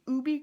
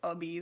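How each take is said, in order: First: The first vowel is an 'oo' sound. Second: The first vowel is an 'uh' sound. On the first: The speaker calls it right. "we still pronounce it "oo" instead of "uh."" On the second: The speaker calls it wrong. "nobody says "ubby." That's just ridiculous"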